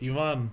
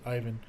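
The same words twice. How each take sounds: First: The name is pronounced a non-English way. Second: The name is pronounced the usual English way. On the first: This is how the family meant it. "Ivan was gonna be my name" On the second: This is how others would say it. "you guys would probably pronounce it Ivan"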